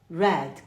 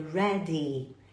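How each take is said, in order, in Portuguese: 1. A palavra termina de repente no som do D. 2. A palavra termina com uma vogal clara depois do D. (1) "as pessoas falam red, red, como se fosse a cor vermelha" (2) "E não é red, é ready"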